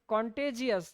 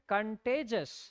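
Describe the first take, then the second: First: The ending is drawn out as 'jee-us'. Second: The ending is a short single 'jus'. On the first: The speaker calls it wrong. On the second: The speaker calls it right.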